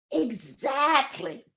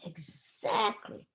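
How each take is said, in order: First: Exactly, slow with falling tune; lama firmly confirming exactly. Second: Exactly, whispered slow with a rise; soft whispered exactly. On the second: Lama quietly repeating exactly in a whisper. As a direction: breathe exactly softly. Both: Retold or imitated. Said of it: "repeated word, two deliveries".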